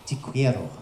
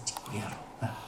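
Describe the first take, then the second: First: Said in the usual way. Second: Breathy seductive whisper of te quiero. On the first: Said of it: "in Spanish, it is". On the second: Shown as a demonstration. Comic to the audience, whispering te quiero seductively. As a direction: whisper "Te quiero" softly, unvoiced, like a lover. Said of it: "whispered repeat".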